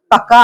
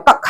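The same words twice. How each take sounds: First: ꯀꯛꯀ read as kak-ka, with an added final vowel; mistaken two-syllable reading. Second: ꯀꯛ as one syllable, kak, ending on k; closed single syllable. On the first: Teacher showing the misreading without lonsum, ꯀꯛꯀ as two syllables kak-ka. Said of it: "ꯈꯣꯟꯊꯣꯛꯇꯣ ꯂꯥꯜꯂꯦꯕ". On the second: Teacher contrasting the intended word, ꯀꯛ as one closed syllable kak. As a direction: stop ꯀꯛ on the final k, no vowel after. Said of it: "ꯍꯥꯏꯔꯔꯣꯏꯕ". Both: Shown as a demonstration.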